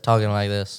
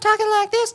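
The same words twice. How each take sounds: First: It is said in a deeper voice. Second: It is said in a higher voice.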